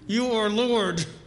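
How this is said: It is said through a clenched, wired jaw.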